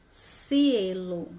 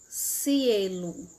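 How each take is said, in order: The two takes are said the same way.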